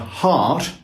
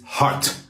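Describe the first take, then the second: First: The T is said softly. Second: The T is said hard and crisp. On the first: The speaker calls it wrong. "or hard" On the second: The speaker calls it right. "toughen up that T"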